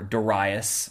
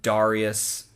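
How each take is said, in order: First: It is pronounced in an anglicized Greek style. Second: It is pronounced in a Latin style. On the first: "that's like the anglicized Greek approximation of his name" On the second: "that's like the more Latin pronunciation"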